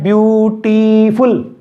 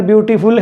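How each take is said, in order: First: ब्यूटीफुल stretched into three slow syllables. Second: Said in the usual way. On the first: Shown as a demonstration. Teacher counting the syllables aloud, ब्यूटीफुल said syllable by syllable. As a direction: sound out ब्यूटीफुल as ब्यू, टी, फुल, drawing each out. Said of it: "three, बोल के देखिए". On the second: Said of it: "बोल के देखिए".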